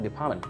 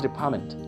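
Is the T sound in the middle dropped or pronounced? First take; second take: dropped; pronounced. First: The middle T sound is dropped. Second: The middle T sound is clearly pronounced. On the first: This is how it is often heard in casual speech. "you hear something like department" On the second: This is the full form of the word. "Actually, the word is department. There is T"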